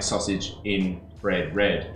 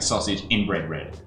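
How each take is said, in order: First: The phrase is said slowly, each word clear. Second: The phrase is said quickly, the words run together. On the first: "it doesn't sound like" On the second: "if you say it really quickly"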